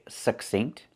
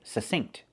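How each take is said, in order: First: A short, unreleased k sound comes before the s. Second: No k sound is heard before the s. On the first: "they pronounce that k with the stop K" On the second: "some people don't pronounce the K"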